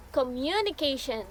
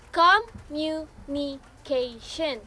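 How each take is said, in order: First: Said in the usual way. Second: "communication" slowly, syllable by syllable; "communication" in slow, separate beats; broken into syllables. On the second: Shown as a demonstration. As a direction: sound out "communication" as com-mu-ni-ca-tion. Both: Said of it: "when break into syllables".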